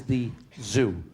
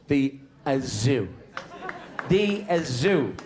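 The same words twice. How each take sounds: First: Said in the usual way. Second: "zoo" with an extra "uh" before it, Dublin style; Dublin pronunciation. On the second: Shown as a demonstration. Dubliner naming the zoo, "zoo" stretched to "uh-zoo" in local style. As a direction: say "the, uh, zoo" as if "uh-zoo" were one word. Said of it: "as we Dubliners call it".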